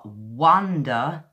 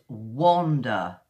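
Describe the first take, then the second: First: "wonder" slowly, with an open uh vowel in the first syllable; British "wonder". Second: "wander" slowly, with a rounded o vowel in the first syllable; British "wander". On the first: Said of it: "So it's wonder, where you're wondering". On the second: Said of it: "when you wander and walk". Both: Shown as a demonstration.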